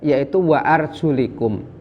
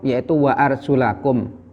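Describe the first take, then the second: First: The vowel before -kum is an 'i' sound. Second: The vowel before -kum is an 'a' sound. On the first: The feet need only be wiped, like the head. "membacanya dengan jer" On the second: The feet are to be washed, like the face. "membacanya dengan nasab"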